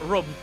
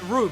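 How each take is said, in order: First: The vowel is short, like the drink 'rum'. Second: The vowel is long, like in 'loop'. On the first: This is how someone else pronounces it. The speaker calls it wrong. "not rum" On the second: This is the speaker's own pronunciation. The speaker calls it right. "I pronounce it room"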